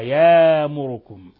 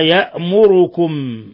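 First: A long a replaces the glottal stop. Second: A glottal stop is heard after the first syllable. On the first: "مع إبدال يأمركم الهمزة ألفا" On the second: "وقرأ الباقون بالضمة الخالصة"

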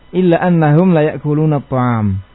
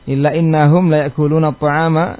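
First: The particle begins with an open 'a' vowel. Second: The particle begins with an 'i' vowel. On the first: This is the variant reading of one reciter. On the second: This is the usual reading.

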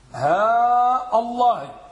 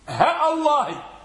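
First: Long vowel on ha, glottal stop before Allah. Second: Short vowel on ha, glottal stop before Allah. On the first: "اللغة الأولى هاء الله ... وضعنا المد على الهاء والهمزة قطعية" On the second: "حذفنا المد وتركنا ماذا؟ الهمزة قطعية"

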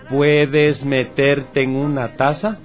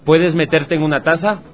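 First: The question is spoken at a slow speed. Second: The question is spoken at a fast speed. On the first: "Ahora lo voy a decir más lentito" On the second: "Ahora lo voy a decir más rápido"

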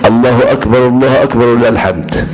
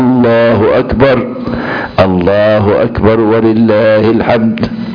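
First: It runs on without a pause between phrases. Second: There is a pause after the first phrase. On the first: Two separate sayings are merged into one. The speaker calls it wrong. "احنا ايه بنخلط الثانيه بالثالثه" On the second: Each saying is kept separate from the other. The speaker calls it right. "واقفوا، هكذا تنطق"

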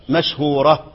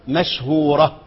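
No difference in how they are said.

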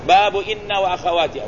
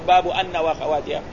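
First: The particle begins with an 'i' vowel. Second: The particle begins with an 'a' vowel. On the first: The speaker calls it right. "قلنا لك أحسن تكسر الهمزة" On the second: The speaker calls it wrong. "ولا يقول باب أن وأخواتها"

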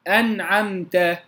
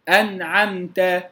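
No difference in how they are said.

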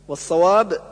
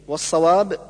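No difference in how they are said.

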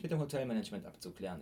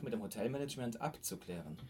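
First: The parts of the phrase run together. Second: The parts of the phrase are clearly separated. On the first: The speaker calls it wrong. "ich sag nicht" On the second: The speaker calls it right. "dann musst du es richtig voneinander abgrenzen"

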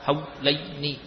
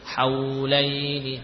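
First: The aw sound is cut off abruptly. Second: The aw sound flows on smoothly. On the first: The speaker calls it wrong. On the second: The speaker calls it right.

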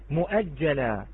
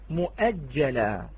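Both takes have the same delivery.

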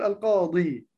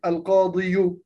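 First: The word ends on a plain long i. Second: A short vowel is sounded after the final i. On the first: The speaker calls it right. "أقول القاضي" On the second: The speaker calls it wrong. "فلا أقول القاضي"

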